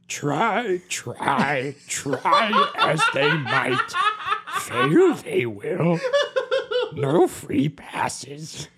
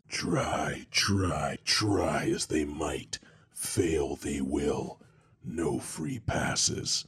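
First: It is read in a put-on character voice. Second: It is read in a plain voice.

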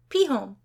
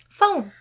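First: The word begins with a P sound. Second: The word begins with an F sound.

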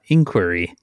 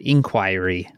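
First: It is said with an American pronunciation. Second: It is said with a British pronunciation. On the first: "like we would say here" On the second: "like they would say in the UK"

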